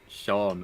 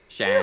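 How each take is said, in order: First: The vowel is a long 'aw' sound. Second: The vowel is a short 'a' sound. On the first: The name has the accent mark over the A. "the A with the accent on it is what makes it Sean" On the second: The name has no accent mark over the A. "Other than that, it it would be like Shan"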